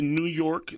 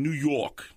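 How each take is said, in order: First: Said in the usual way. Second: New York said the New Yorker way, r dropped, "New Yawk"; New York accent. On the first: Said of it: "En vez de New York". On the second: Shown as a demonstration. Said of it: "dicen New York". (acento neoyorquino, sin la erre)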